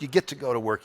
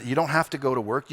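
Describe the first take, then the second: First: "get" lifted as a privilege; stress on get. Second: "have" leaned on like a chore; stress on have. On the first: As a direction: hit "get" in "you get to". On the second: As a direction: press "have" in "you don't have to". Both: Shown as a demonstration.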